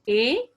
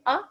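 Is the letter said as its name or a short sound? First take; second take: name; short sound. First: The letter is said as its full name. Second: The letter is said as a short vowel sound. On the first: "when the वॉल says it's name" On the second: "short वॉल्स ... आप इनकी sound निकालेंगे"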